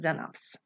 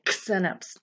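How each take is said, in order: First: The word begins with a Z sound. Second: The word begins with a KS sound. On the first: The speaker calls it right. "It says Xenops" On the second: The speaker calls it wrong. "It doesn't say Xenops"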